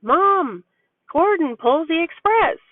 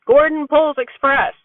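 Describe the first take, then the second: First: Lightly voiced little boy, higher; a mom's light take on her toddler's excited line; imitating her son. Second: Her son's dropped-word version, a bit higher and louder; imitating her son. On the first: Mom voicing her son's excited train talk, a touch higher. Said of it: "He's been running around going on about". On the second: Mom showing how her son really says it, lightly higher. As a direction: lightly mimic a toddler's short phrase. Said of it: "but he goes".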